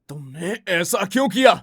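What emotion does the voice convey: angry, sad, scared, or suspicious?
angry. The line is said in an angry tone. "Angry"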